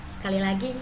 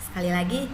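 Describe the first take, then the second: No difference in how they are said.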